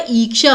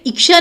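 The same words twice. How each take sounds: First: ईक्षा opening on a held "ee"; long ee. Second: इच्छा said as "iksha" with quick i; short i. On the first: Teacher correcting students, ईक्षा with long ee. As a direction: say ईक्षा as "eeksha". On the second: Teacher showing the misspelling, short-i "iksha" for इच्छा. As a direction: start इच्छा on a short "i", then "ksha". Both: Shown as a demonstration. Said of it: "बड़ी की मात्रा आएगी".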